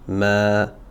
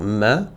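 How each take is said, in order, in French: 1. La voyelle se prononce longue. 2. La voyelle se dit courte. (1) "je vais le prolonger avec le petit alif" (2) "je ne vais pas dire ma"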